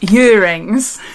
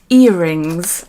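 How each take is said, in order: First: The word begins with a 'y' sound. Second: The word begins with a plain vowel sound. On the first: "My accent, my Welsh accent. I say earrings, as in Y E A R, rings" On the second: "I'll try and remember"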